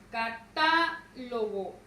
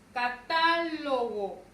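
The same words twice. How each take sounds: First: «Catálogo» muy lento, TÁ larga y pausa antes de «logo»; sílaba tónica TÁ separada. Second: TÁ fuerte y alargada en «catálogo»; acento en TÁ. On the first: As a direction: parte «Catálogo» después de TÁ. («Catálogo» deletreado por golpes, con TÁ sostenida) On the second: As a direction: carga la voz en la segunda sílaba de «catálogo». («catálogo» seguido, con TÁ marcada) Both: Shown as a demonstration. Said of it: "la mayor fuerza de voz recae en ta".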